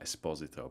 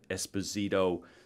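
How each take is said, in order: First: The name is said in an Italian way. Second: The name is said in an American way. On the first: "obviously Italians would pronounce that Esposito" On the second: "but we were in New York"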